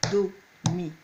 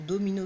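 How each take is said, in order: First: "do, mi," clapped out one syllable at a time with a pause after each; split into syllables. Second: Said in the usual way. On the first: Shown as a demonstration. Teacher clapping out domino for pupils, syllable by syllable. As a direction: beat out "do" and "mi" as separate claps. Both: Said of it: "c'est quand je claque dans les mains".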